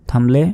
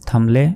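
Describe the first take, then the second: No difference in how they are said.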